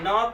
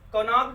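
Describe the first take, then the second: First: The word begins directly with an n sound. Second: The word begins with a sounded k. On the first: The speaker calls it right. "इसके क्या पढ़ते हैं नॉक" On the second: The speaker calls it wrong. "कनॉक नहीं पढ़ते हैं"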